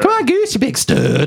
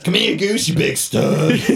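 First: Only the last word is in a deep voice. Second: The whole line is in a deep voice.

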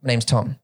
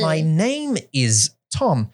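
First: It is said fast and casually, street style. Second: It is said slowly and carefully, textbook style.

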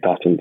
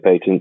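First: The word is said with an American pronunciation. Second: The word is said with a British pronunciation. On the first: "In the US, you would say patents" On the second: "in the UK, we would say patents"

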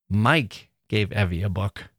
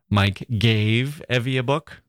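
First: The stress is on Mike. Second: The stress is on gave.

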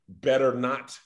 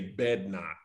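First: The word 'better' is said in full. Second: The word 'better' is shortened to one syllable. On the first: "instead of saying better not"

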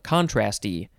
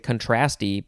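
First: The stress falls on the first syllable. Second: The stress falls on the second syllable. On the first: "it says emphasis should be on the first one" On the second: "Now I would want to say contrasty"

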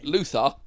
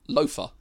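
First: The middle consonant is a 'th' sound. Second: The middle consonant is an 'f' sound. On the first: The speaker calls it right. "Luther, not Loafer" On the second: The speaker calls it wrong. "The other has an F sound"

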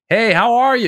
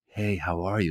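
First: It is said loudly, projected like on stage. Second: It is said quietly and low-key.

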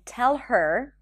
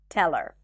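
First: The H in 'her' is pronounced. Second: The H in 'her' is dropped. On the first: The speaker calls it wrong. "instead of saying tell her" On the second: The speaker calls it right. "is dropped when it's unstressed"

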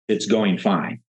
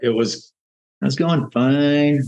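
First: It is said with a confident, untroubled tone. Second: It is said with a hesitant, unsure tone. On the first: The speaker is genuinely content. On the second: The speaker has hidden doubts.

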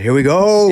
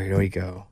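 First: It sounds excited and upbeat. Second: It sounds dreading and unhappy.

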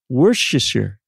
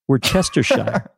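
First: Several written syllables of the word are dropped. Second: Every written syllable of the word is pronounced. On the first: The speaker calls it right. "It's Worcestershire" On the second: The speaker calls it wrong. "If you were just to phonetically pronunciate this word right here, this label, it would be Worcestershire"

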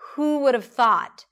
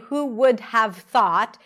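First: The words are reduced and run together. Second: Each word is separated and fully pronounced. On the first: The speaker calls it right. "Everything is reduced" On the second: The speaker calls it wrong. "She doesn't separate every word. She doesn't fully pronounce every word"

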